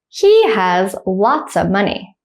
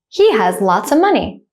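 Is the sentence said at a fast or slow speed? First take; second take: slow; fast. First: The sentence is spoken slowly. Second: The sentence is spoken at normal conversational speed. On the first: "The first time I'll say it slowly" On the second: "The second time I'll say it at a normal speed, like a native speaker"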